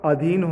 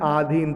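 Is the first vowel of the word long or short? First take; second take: short; long. First: The first vowel is a short 'a'. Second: The first vowel is a long 'aa'. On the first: The speaker calls it right. "अधीन होगा। आ नहीं होगा" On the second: The speaker calls it wrong. "आ लिखा है आधीन"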